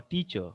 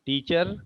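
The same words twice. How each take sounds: First: Teacher ending in an open schwa, r dropped; teacher with weak, r-less ending; teacher without R. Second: Teacher with the final r sounded; teacher ending in a clear -er. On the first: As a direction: stress teach and let the ending fade. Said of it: "Here the stress is on teach". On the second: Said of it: "What do you say?". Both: Shown as a demonstration.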